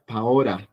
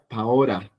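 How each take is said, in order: First: The middle consonant is a flapped R. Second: The same.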